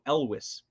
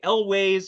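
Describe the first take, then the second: First: The second syllable sounds like 'wess'. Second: The second syllable sounds like 'ways'. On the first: This is how the name's owner says it. The speaker calls it right. "He said Elvis with a W, so Elwes" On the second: This is how many people say it. The speaker calls it wrong. "people say Elways"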